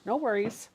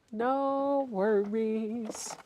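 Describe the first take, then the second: First: Said in the usual way. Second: Very slow, stretched-out "No worries"; drawn-out. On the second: Real, not acted. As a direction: stretch each vowel of "No worries" way out. Same reply repeated, stretched out.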